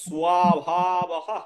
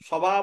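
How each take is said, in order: First: The word ends with a breathy h sound. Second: The word ends on a plain vowel. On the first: The speaker calls it right. "বলতে হবে স্বভাবহ" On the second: The speaker calls it wrong. "স্বভাবও বলা যাবে না"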